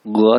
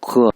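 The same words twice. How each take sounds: First: गुआ with a voiced hard g; falling गुआ with a hard g; g, not kh. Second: खुआ with a throaty, airy kh; falling खुआ with friction at the start; kh, not g. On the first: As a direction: open गुआ on a clean g, no friction. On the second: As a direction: open खुआ on a scraped खे sound. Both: Shown as a demonstration. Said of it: "गुआ था".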